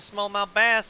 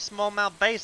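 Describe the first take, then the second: First: The word bass rhymes with mass. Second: The word bass rhymes with face. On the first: The speaker calls it right. "instead of smallmouth bass" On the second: The speaker calls it wrong. "I say smallmouth bass instead of"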